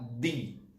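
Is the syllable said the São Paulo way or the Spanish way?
Spanish. It is said with a Spanish pronunciation. The speaker calls it right. "A gente fala di"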